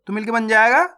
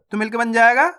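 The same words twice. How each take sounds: The two takes are said the same way.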